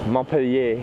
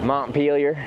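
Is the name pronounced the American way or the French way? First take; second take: French; American. First: The name is pronounced in the French way. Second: The name is pronounced in the American way. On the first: "French city in France" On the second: "But this is America. So how do you say it?"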